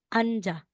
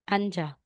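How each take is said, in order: First: An n sound is heard before the j. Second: The same.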